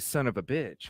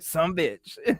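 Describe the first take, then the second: First: The phrase is said in full, every word clear. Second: The phrase is squeezed into two short syllables. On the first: The speaker is from up north. "Up up here, we say" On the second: The speaker is from down south. "down there they say"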